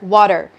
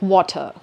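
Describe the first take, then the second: First: The final R sound is clearly pronounced. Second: The final R sound is dropped. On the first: "the American accent says R like er" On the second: "the British doesn't even say it"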